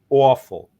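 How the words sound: It has a New York vowel. "New York talk, awful"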